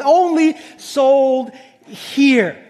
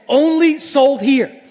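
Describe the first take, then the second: First: Drawn out. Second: Said in the usual way. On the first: Retold or imitated. Repeating the website's line mockingly.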